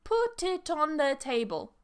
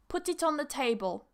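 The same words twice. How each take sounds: First: The phrase is said slowly, word by word. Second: The phrase is said quickly, words run together. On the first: "It sounds weird when we say it slowly" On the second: "when we say naturally"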